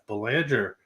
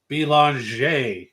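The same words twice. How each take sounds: First: The name is said the American English way. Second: The name is said the Canadian way.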